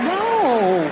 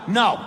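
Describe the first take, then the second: First: It is said teasingly, as a coy refusal. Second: It is said as a firm refusal.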